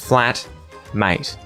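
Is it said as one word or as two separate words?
two words. It is said as two separate words. The friend has been flattened. "he's seeing his mate who is flat"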